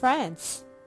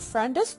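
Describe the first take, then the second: First: No vowel sounds before the final s. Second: An extra vowel sounds before the final s. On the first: The speaker calls it right. "مفيش E قبل الأس عشان كده أنا بنطقها friends" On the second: The speaker calls it wrong. "ما اسمهاش friends. أنا بسمع كتير قوي أطفال بيقولوا friends"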